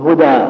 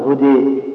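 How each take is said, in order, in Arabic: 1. الحركة الأخيرة فتحة مفتوحة تماماً 'aa'. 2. الحركة الأخيرة تميل نحو 'ee'. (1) "مثل هدى" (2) "ما تقول هدي"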